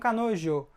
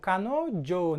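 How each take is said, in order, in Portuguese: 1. O 'jo' começa com um 'zh' suave. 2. O 'jo' começa com um 'dj' forte. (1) "não kanojo" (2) "a gente fala jo, kanojo"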